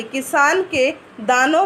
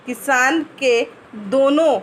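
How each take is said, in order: First: "दानों" said with a long a, daanon; corrected word. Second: "दोनों" read by mistake with o, dono; the slip "दोनों" before the correction; misread word. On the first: (सुधारकर "दानों" कहा गया) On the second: (गलती से "दोनों" पढ़ा गया) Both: Real, not acted. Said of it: "sorry".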